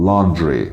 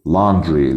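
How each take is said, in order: The two takes are said the same way.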